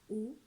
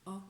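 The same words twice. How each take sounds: First: The vowel is closed, lips more rounded. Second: The vowel is open, lips opened wider. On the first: The speaker calls it wrong. "On ne dit pas un O fermé" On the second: The speaker calls it right. "on ouvre un petit peu plus les lèvres"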